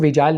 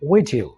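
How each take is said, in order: First: The second syllable sounds like 'jile'. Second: The second syllable sounds like 'jil'. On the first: The speaker calls it wrong. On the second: The speaker calls it right.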